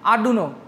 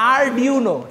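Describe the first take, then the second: First: The middle syllable is a plain 'doo' sound. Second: The middle syllable has a 'dwee' glide sound. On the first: The speaker calls it wrong. "আমি একটা pronunciation করলাম এরকম" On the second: The speaker calls it right. "প্রোনাউন্সিয়েশনটা একটা ইয়া করেন"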